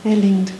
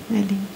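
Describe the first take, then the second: First: Said in the usual way. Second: "é lindo" repeated much softer, almost to herself; a quiet afterthought, "é lindo" near a murmur; soft echo. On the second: Real, not acted. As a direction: let "é lindo" fade to a hush.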